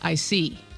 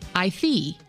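First: The s in 'see' is a clear s. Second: The s in 'see' is lisped like 'th'. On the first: "instead of"

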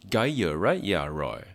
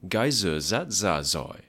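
First: The d and gi sounds are said as y. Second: The d, gi and r sounds are said as z. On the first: "in Southern Vietnamese will be said" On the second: "in Northern Vietnamese would sound like"

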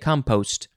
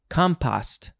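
First: It is said in an American pronunciation. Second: It is said in a British pronunciation. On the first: "and we say compost" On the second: "the Brits say compost"

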